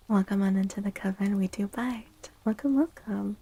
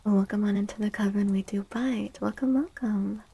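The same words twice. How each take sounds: The two takes are said the same way.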